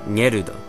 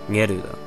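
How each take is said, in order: No difference in how they are said.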